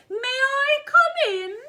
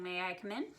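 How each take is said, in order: First: Put-on very high, loud, drawn-out old lady; old lady head voice. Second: Said in the usual way. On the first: Shown as a demonstration. Teacher demonstrating head register, silly old lady voice. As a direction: ring it out slowly in head voice. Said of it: "is our old lady voice".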